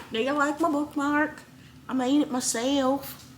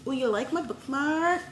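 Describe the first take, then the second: First: High bright showing-off voice; sing-song proud tone, pitched up; playful put-on voice. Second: Excited. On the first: Bookmark repeated in put-on voice. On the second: Acted. Showing off bookmark.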